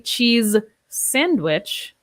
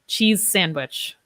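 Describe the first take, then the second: First: The two words are said separately, unlinked. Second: The end sounds are linked into one. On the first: The speaker calls it wrong. "I would not say cheese sandwich" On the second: The speaker calls it right. "I would say cheese sandwich. I link those similar sounds"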